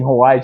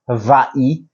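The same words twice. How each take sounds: First: It is said with an American pronunciation. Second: It is said with a native, non-American pronunciation. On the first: This is the usual American way. The speaker calls it wrong. "we've butchered it" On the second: This is the real pronunciation. The speaker calls it right. "Hawaii should be Hawaii"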